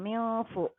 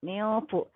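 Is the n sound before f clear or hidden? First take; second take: hidden; hidden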